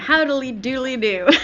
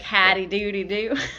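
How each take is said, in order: First: It is said in his normal accent. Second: It is said in a put-on Southern accent.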